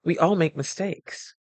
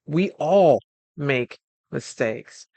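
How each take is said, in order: First: Said in the usual way. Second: "We all make mistakes" said slowly, leaning on "all"; slow emphatic repeat. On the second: Shown as a demonstration. The speaker to the call, repeating "We all make mistakes" slowly, stressing "all". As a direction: draw out "all" in "We all make mistakes" to drive it home.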